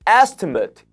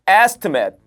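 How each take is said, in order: First: The last syllable has a weak, reduced vowel. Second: The last syllable has a full vowel. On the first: It is the noun meaning a price quote. "명사일 땐 estimate 이렇게 발음이 됩니다. 그래서 강세가 앞쪽에 와서 뒤에 발음이 으 발음처럼 돼버립니다" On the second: It is the verb meaning to calculate roughly. "그래서 estimate라고 하지 않아요. 그거는 동사일 때"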